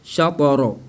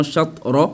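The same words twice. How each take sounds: First: "shatara" with echoed t, sha-to-ro; qalqala. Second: "shatra" with stopped t, shat-ro; without qalqala. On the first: Teacher shows what must be said, qalqala. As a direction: bounce the t in "shatara". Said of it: "Il faut dire shatara". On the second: Teacher shows what not to say, without qalqala. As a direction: shut the t in "shatra". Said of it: "Et non shatra". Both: Shown as a demonstration.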